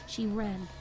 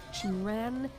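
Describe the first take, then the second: No difference in how they are said.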